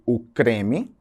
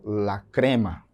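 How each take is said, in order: First: Said in the usual way. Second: "la crema" in Spanish, slow and lower, ending in a; drawn-out Spanish "la crema"; Spanish pronunciation. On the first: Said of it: "Em português eu digo". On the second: Shown as a demonstration. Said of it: "Em espanhol".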